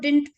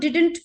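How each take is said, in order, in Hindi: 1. n से पहले वाला d silent है। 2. n से पहले वाला d साफ़ तौर पर बोला जाता है। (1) "didn't का d silent अगर आप कर देते हैं तो आपका जो spoken का flow है वो better आता है" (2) "इसको didn't pronounce करते हैं बहुत लोग"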